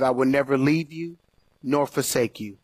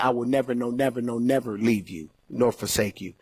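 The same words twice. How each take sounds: First: Said in the usual way. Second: "never" stressed on each repeat, softer toward the end; emphatic repetition. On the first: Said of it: "in the Greek, it's a little more emphatic". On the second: Shown as a demonstration. Preacher giving the emphatic Greek reading, "never" stressed. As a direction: lean into every "never". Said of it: "it's a little more emphatic".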